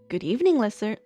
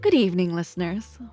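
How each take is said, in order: First: It is said in a plain, ordinary voice. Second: It is said in a smooth radio voice.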